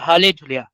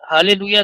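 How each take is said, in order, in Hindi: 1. यह hale juliya बोला जाता है, इसमें 'j' की ध्वनि है। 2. यह haleluya बोला जाता है, इसमें 'j' की ध्वनि नहीं है। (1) "तो ये एक्चुअल शब्द है" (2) "हालेलुया नहीं होता है।"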